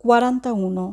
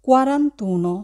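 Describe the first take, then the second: First: "quaranta uno" said as two separate words with a break before uno; wrong split form. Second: Said in the usual way. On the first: Shown as a demonstration. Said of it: "আমরা বলবো না". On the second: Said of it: "আমরা বলবো".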